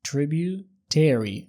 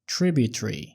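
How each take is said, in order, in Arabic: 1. المقاطع الأخيرة طويلة ومنطوقة بالكامل. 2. المقاطع الأخيرة مقطوعة ومختصرة. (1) "النطق الأمريكي بيقولوها tributary" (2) "وده نطق بريطاني"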